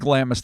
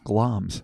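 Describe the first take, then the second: First: The name is said with two syllables. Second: The name is said with one syllable. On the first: The speaker calls it wrong. "said glamis the whole time until I just took the time to Google it" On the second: The speaker calls it right. "I'm like, oh"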